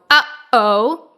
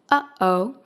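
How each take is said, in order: First: The sound starts with a harsh, hard catch. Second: The sound starts with a gentle, soft catch. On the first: The speaker calls it wrong. "we don't want to go uh-oh, super, super harsh" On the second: The speaker calls it right.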